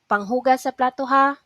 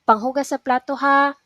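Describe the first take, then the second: The two takes are said the same way.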